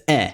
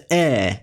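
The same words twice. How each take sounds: First: "e" said short, as in English rest; short open e. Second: "e" held longer, as in English red; long open e. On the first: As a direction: give "e" the vowel of rest. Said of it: "as in the English rest". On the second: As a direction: give "e" the drawn-out vowel of red. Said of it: "as in the English red". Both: Shown as a demonstration.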